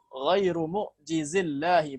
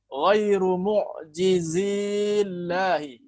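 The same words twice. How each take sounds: First: The vowel before llahi is short. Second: The vowel before llahi is long. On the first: The speaker calls it right. "huruf mad ya seketika wasal itu dihapus" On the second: The speaker calls it wrong. "Ini salah"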